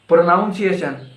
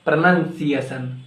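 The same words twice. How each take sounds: First: "Pronunciation" as pro-NOUN-see-ay-shun; wrong PRONUNCIATION. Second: "pronunciation" as pruh-NUN-see-ay-shun; corrected PRONUNCIATION. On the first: Teacher quizzing learners on "Pronunciation", with NOUN inside. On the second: Teacher correcting learners, "pronunciation" with NUN inside. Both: Shown as a demonstration. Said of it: "It's not pronunciation".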